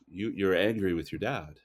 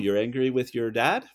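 First: The pitch falls at the end. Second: The pitch rises at the end. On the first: It makes a statement. The speaker calls it right. "you're just making the statement" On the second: It asks a question. The speaker calls it wrong. "one kind of goes up"

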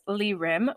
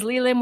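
First: The second part begins with an R sound. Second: The second part begins with an L sound. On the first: "with an R" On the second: "with an L"

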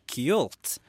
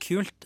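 First: The word is said with a melodic swing. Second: The word is said plainly, without a swing. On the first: "så har jeg lagt på en liten kul svung" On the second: "i stedet for kult"

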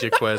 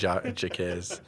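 First: A 'w' sound follows the 'k' sound. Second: No 'w' sound follows the 'k' sound. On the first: The speaker calls it wrong. "I didn't say Jaquez" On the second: The speaker calls it right. "You don't pronounce the U"

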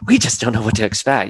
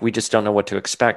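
First: It is said with more animation in the voice. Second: It is said earnestly, with little animation. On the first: "like with a little bit more animation to her voice" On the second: "She says it very like earnestly"

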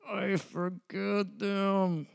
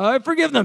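First: It is said quietly. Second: It is said loudly.

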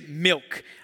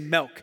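First: Milk is said with a standard pronunciation. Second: Milk is said with a Western Pennsylvania pronunciation. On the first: "Some of you say milk" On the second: "a Western PA way of saying that I've been told, I say milk"

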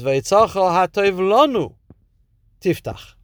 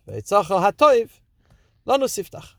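First: The break comes after the third word. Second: The break comes after the second word. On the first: Open the treasure that is good for us. "Your treasure that is good for us, you should open" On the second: God's good treasure should be opened to us. "Your treasure that is good, open to us"

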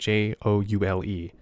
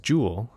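First: The vowel sounds like the one in 'scowl'. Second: The vowel sounds like the one in 'fools'. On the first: The speaker calls it right. "that's joule as in J-O-U-L-E" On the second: The speaker calls it wrong. "often mispronounced as joule"

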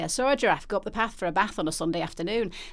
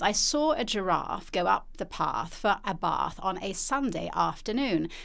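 First: It is spoken in a northern English accent. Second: It is spoken in a southern English accent. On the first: "as opposed to the north where you say" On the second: "if you say it in a southern accent"

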